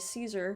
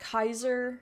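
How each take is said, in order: First: It is said the modern English way. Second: It is said the classical Latin way. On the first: This is how English speakers say it today. "in modern English, we say Caesar" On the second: This is how scholars say it was originally pronounced. "which is how you're supposed to actually pronounce it"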